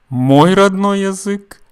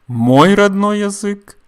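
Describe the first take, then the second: Both takes have the same delivery.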